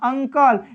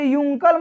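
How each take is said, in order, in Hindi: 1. शब्द की शुरुआत छोटी 'uh' की आवाज़ से होती है। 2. शब्द की शुरुआत 'yoo' की आवाज़ से होती है। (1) "अ से पढ़ते हैं अंकल" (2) "इसे यूंकल मत पढ़ दीजिएगा"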